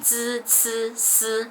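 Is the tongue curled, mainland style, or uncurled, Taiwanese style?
Taiwanese. Said in Taiwanese Mandarin without curling the tongue.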